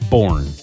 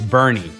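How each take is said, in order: First: The name has one syllable, like 'born'. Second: The name has two syllables, like 'bernie'. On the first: The speaker calls it wrong. "not Born" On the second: The speaker calls it right. "It's Bernie"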